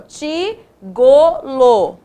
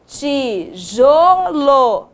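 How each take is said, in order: First: Slow wrong try. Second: Slow right try. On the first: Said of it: "Não". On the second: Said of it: "Isso, muito bem". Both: Shown as a demonstration.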